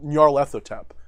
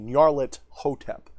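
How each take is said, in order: First: The t and h merge into a th sound. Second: The t and h are said as separate sounds. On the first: This is how other people say the name. The speaker calls it wrong. "They put it together to make a th sound" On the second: Hotep is kept as a separate part of the title. The speaker calls it right. "I believe it's supposed to be Nyarlet Hotep"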